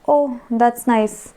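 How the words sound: It is said with some emotional expression.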